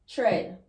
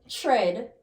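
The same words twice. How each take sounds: Both takes have the same delivery.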